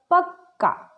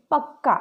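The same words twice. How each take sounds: First: पक्का said higher with the double क held long; doubled k demo. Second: Said in the usual way. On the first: Shown as a demonstration. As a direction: stretch the क्क in पक्का, pitched up. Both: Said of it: "वर्ण का दो बार प्रयोग हुआ है".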